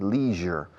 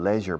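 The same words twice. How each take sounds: First: It is said the American way. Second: It is said the British way. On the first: "Los americanos dicen leisure" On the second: "Los británicos dicen leisure"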